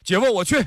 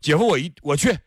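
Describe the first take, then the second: First: It is said at the highest pitch. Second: It is said at a somewhat higher pitch.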